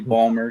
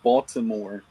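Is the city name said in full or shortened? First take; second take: shortened; full. First: The name is squeezed into two short syllables. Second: The name is said with all three syllables. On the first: This is how locals say it. "that's how we say it" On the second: This is the standard way to say it. "is a proper pronunciation"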